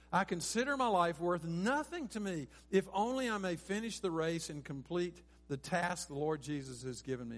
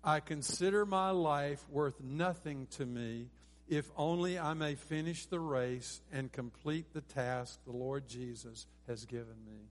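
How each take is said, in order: First: Raised, loud start settling down to the end; preacher quoting a verse forcefully; emphatic scripture reading. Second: Slow, measured unison verse reading; deliberate, evenly spaced recitation; leading group recitation. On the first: Real, not acted. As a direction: read the verse with conviction, flowing on. Preacher reads the verse alone. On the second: Shown as a demonstration. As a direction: lead the congregation through it phrase by phrase. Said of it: "Let's say this together".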